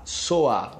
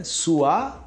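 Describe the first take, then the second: First: Soar said with an open o, falling. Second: Suar said with a clear rising u vowel. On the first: Teacher contrasting soar with Suar. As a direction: say soar with the vowel o. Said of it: "o outro é so". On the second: Teacher contrasting Suar with soar. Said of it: "Um é su". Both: Shown as a demonstration.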